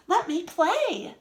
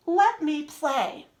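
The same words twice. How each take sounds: First: "Let me play" said a bit more excited, with a higher lift. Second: Said in the usual way. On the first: Shown as a demonstration. Teacher showing students how an exclamation point sounds, mildly excited. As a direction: read it like it ends with an exclamation point. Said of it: "exclamation point if you wanna sound more excited". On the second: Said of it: "if you wanna sound more excited".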